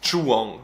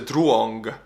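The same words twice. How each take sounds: First: It ends in a soft ng, no hard g. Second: It ends with an audible hard g sound. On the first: "in English, when a word ends with N and G, you pronounce it ng" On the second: "So in Estonia I would say Truong"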